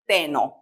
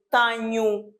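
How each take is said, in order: First: Teno with a plain n, no nh sound; wrong teno. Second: Tenho with a clear palatal nh sound; correct tenho. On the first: Teacher showing the wrong teno with a plain n. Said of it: "não posso dizer teno". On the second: Teacher modelling tenho with a clear nh sound. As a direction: say tenho with a Portuguese nh, like Spanish ñ. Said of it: "eu aqui devo dizer tenho". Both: Shown as a demonstration.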